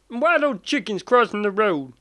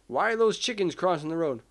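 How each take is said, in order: First: It is said in a Gomer Pyle impression. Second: It is said in a dry, plain voice.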